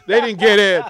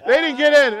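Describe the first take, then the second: First: Said in the usual way. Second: Repeated much higher and louder in frustration; frustrated repeat. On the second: Retold or imitated. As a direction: raise it high, exasperated. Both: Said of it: "And I'm mad".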